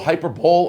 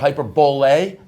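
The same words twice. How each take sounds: First: It is said with a plain English pronunciation. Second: It is said with a mock French pronunciation.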